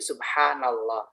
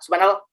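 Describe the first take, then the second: First: The word is said slowly and calmly. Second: The word is said quickly and hurriedly. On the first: The speaker calls it right. "dengan bacaan memang tenang" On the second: The speaker calls it wrong. "tidak subhanallah, nah nggak begitu ya"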